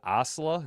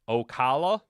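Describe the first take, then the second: First: It is said with two syllables, no middle 'ca'. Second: It is said with three syllables, including 'ca'. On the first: The speaker calls it wrong. "Is it Osla? Am I pronouncing that right?" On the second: The speaker calls it right. "Pronounces it o- Ocala. Ocala? Not Osla"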